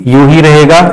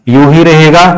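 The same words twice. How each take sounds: The two takes are said the same way.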